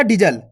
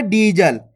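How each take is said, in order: First: "डीजल" with a short first vowel, like "dijal". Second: "डीजल" with the first vowel drawn out; long ee. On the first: Teacher showing the wrong reading, short i in "डीजल". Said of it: "ऐसे नहीं पढ़ना". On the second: Teacher showing the correct reading, long ee in "डीजल". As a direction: stretch the ee in "डीजल". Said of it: "इसी प्रकार से पढ़ना है". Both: Shown as a demonstration.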